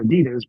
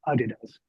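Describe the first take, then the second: First: It is said the American way. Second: It is said the Australian way.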